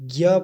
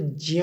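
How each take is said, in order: First: The syllable begins with a g sound. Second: The syllable begins with a j sound. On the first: This is the everyday Hindi reading. The speaker calls it wrong. "वैसे तो हिंदी में ज्ञ पढ़ा जाता है" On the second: This is the traditional scholarly reading. The speaker calls it right. "सही उच्चारण जो है ... तो ज्य ही पढ़ा जाता है ये"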